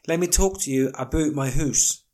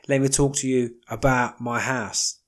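First: House is said the Canadian way, like 'hoose'. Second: House is said plainly, without the Canadian vowel.

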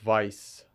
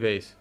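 First: The name is said with a 'Vice' sound. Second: The name is said with a 'Vaze' sound. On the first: This is how the name would be said in German. "I think the German would be like Vice" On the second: This is the Russian-rooted way the family says it. "It's actually Vaze"

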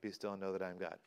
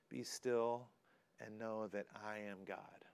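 First: It is said quickly and dismissively. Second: It is said slowly and reverently.

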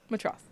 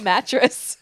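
First: The word sounds like matross. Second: The word sounds like mattress. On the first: The speaker calls it right. "I think it's a matross" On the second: The speaker calls it wrong. "I don't know how to pronounce this word, and I pronounced it mattress"

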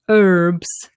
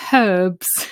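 First: The word starts without an h sound. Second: The word starts with an h sound. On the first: This is how Americans say it. "They don't pronounce the H" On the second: This is how the British say it. "We say herbs"

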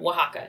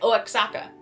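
First: It is said in the local way. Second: It is said as English spelling suggests. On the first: The speaker calls it right. "I learned how to pronounce that word" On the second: The speaker calls it wrong. "Because it looks like Oaxaca, if you're, you know, English"

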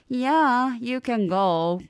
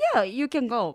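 First: It sounds reluctant, actually meaning no. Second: It sounds genuinely willing and approving.

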